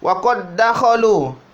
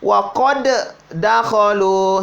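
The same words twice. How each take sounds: First: The first d merges into the next d. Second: The first d is said separately. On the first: The speaker calls it right. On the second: The speaker calls it wrong.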